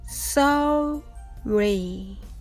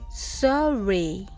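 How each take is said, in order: First: The word is said slowly. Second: The word is said a bit faster. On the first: "はじめはゆっくりです。" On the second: "では少し早く発音してみましょう。"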